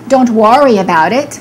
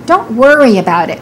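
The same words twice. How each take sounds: First: The vowel in worry sounds like a full O. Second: The vowel in worry is a reduced er sound. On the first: The speaker calls it wrong. "Don't say" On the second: The speaker calls it right.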